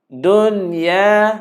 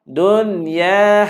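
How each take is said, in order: Both takes have the same delivery.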